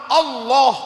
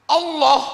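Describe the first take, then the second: The two takes are said the same way.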